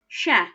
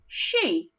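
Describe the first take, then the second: First: The vowel is a short 'eh' sound. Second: The vowel is a long 'ee' sound. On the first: The speaker calls it wrong. "if I read it with that eh, it'd sound like this" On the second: The speaker calls it right. "that eh makes an e sound"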